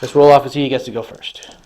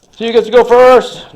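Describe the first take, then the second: First: Said in the usual way. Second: High, loud announcer call. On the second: Acted. Hyping up the dice roll, announcer voice.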